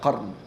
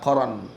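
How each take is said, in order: First: No vowel is heard between the r and n. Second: A vowel is heard between the r and n. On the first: The speaker calls it wrong. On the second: The speaker calls it right. "Nama tempat Qaran"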